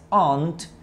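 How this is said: It is said with a British accent. "En inglés británico tía es aunt"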